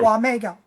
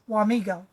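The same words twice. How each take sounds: First: It uses the original Potawatomi pronunciation. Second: It uses the Americanized English pronunciation. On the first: The speaker has lived there fifty years or more. "you use the Indian original pronunciation" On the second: The speaker has lived there under fifty years. "If you're a newbie, been here under fifty years, you use Wamego"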